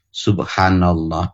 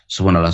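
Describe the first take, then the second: First: It is said slowly and thoughtfully. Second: It is said fast and mechanically.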